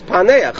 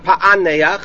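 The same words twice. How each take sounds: First: The middle guttural consonant is silent. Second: The middle guttural consonant is pronounced. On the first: The speaker calls it right. "it's a silent Ein" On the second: The speaker calls it wrong. "It's not Paneach"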